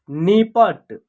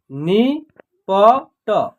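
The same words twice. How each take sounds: First: Said in the usual way. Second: "नि प ट" as three separate sounds; spelled out by syllable. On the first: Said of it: "एक शब्द तैयार हो जाएगा". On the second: Shown as a demonstration. Teacher sounding out letters for learners, "नि प ट" piece by piece. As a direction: leave a gap between "नि", "प" and "ट". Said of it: "तीनों को जोड़ेंगे तो एक शब्द".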